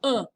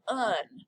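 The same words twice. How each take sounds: First: "Un" as a short nasal grunt with no n at the end; punched-in-the-gut nasal. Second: "un" read as English spelling, with the final n sounded; spelling pronunciation. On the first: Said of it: "like you're getting punched in the gut". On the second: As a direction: say "un" the English way, pronouncing the ending consonant. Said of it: "it looks like you would say un". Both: Shown as a demonstration.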